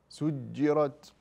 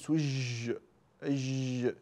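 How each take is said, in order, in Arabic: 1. صوت الجيم قصير. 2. صوت الجيم طويل. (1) "الجيم حرف شديد فزمنه قصير" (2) "لا تقول سج أج شايف طويل"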